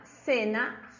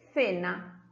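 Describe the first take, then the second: First: The word begins with an s sound. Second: The word begins with a th sound. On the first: "usando el sonido S" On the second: "colocando la punta de la lengua entre los dientes de arriba"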